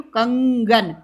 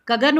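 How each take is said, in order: First: कंगन with clear nasal ं. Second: कगन said plain, no nasal ं; without nasal. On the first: Teacher contrasting word with the dot. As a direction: add the nasal hum. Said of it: "बिंदी लगा दी तो". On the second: Teacher contrasting word without the dot. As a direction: drop the nasal. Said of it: "लेकिन बिंदी लगा दी तो कंगन". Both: Shown as a demonstration.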